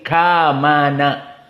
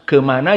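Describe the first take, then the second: First: The first vowel is an open A sound. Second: The first vowel is a short E sound. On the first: This is the Sundanese way. "Bahasa orang Sundanya sama dengan fathah" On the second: This is standard Indonesian. "Itu bahasa Indonesia"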